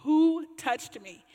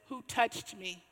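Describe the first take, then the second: First: Drawn-out, louder Who touched me; slow, louder demand. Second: Said in the usual way. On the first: Retold or imitated. Jesus stopping the procession, slow and louder. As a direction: press the question slowly and loudly. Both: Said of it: "stops the processional and says".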